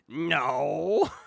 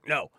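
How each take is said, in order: First: The word is drawn out for a long time. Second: The word is said short and quick.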